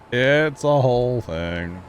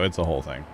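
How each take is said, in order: First: Drawn out. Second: Said in the usual way. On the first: Pretend. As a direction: stretch out every word playfully. Repeats own catchphrase, stretched out.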